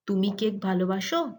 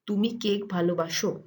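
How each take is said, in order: First: The voice rises at the end. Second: The voice does not rise at the end. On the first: It asks whether the listener loves cake. "Notice that the voice goes up in an inflection" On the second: It states that the listener loves cake. "you love cake is"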